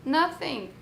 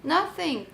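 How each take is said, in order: Both takes have the same delivery.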